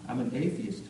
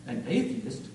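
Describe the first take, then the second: First: Said in the usual way. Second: Taken-aback echo, pitch jumping mid-word; understated, disbelieving query; shocked question. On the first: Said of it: "I said". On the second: Acted. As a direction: repeat it in mild shock. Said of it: "she said in shock".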